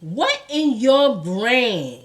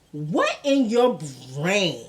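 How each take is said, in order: First: Slow "what in your brain", weight on "what"; stress on what. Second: "what" hit hard, slow and incredulous; stress on what. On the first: Vlogger asking again, slower, weight on "what". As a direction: drag it out, disbelieving. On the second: Vlogger to rapper, stressing "what" in disbelief. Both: Real, not acted. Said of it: "I have to ask".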